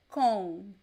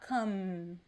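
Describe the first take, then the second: First: It ends in a nasal vowel without lip closure. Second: It ends with the lips closed on an M. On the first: The speaker calls it right. "It is com. ... there is no M sound. ... It is a nasal sound" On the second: The speaker calls it wrong. "We don't touch the lips to pronounce. It is not com"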